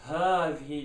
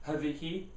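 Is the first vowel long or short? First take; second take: long; short. First: The first vowel after h is long. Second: The first vowel after h is short. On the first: The speaker calls it right. "You have to stretch the ha. So it's هذه" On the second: The speaker calls it wrong. "You can't say هذه. That's wrong again"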